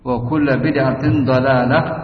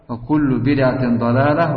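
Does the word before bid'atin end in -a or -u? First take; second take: -a; -u. First: The word before bid'atin ends in an a vowel. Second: The word before bid'atin ends in a u vowel.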